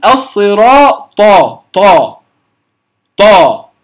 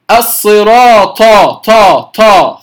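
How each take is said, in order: First: "الصراط، طا" with a firm unaspirated heavy t; correct pronunciation. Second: "الصراط، طا" with a breath puff after each heavy t; wrongly aspirated. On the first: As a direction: stop air and voice fully on the ط of "الصراط". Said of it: "إنما أقول". (نطق "الصراط، طا" بطاء شديدة مفخمة بلا همس) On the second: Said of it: "لا أهمس الطاء، فلا أقول". (نطق "الصراط، طا" بطاء مهموسة كالتاء المفخمة) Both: Shown as a demonstration.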